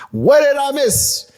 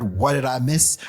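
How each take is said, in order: First: High, loud, drawn-out title call; pitched way up and louder, stretched for emphasis; hyped title shout. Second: Said in the usual way. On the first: Acted. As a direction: belt out the title slowly with hype. Repeats the song title for emphasis.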